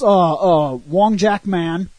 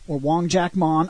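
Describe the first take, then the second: First: The last syllable has the vowel of 'man'. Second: The last syllable has the vowel of 'mon'. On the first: "The movie calls him Man all the time" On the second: "Many times I've heard people pronounce his name as Mon"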